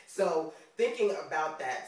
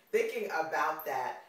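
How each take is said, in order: First: New York accent. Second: Said in the usual way. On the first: Real, not acted. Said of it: "the New York accent comes out sometimes". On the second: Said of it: "sorry, the, the New Yorker".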